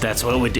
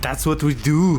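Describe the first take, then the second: First: It is said in a plain natural accent. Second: It is said in an imitated Austrian accent.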